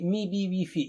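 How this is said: The short vowels sound like i. The speaker calls it right. "It should be mi bi wifi in Arabic"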